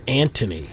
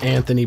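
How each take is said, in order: First: The middle consonant is a plain 't' sound. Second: The middle consonant is a soft 'th' sound.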